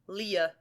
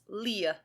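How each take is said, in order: The two takes are said the same way.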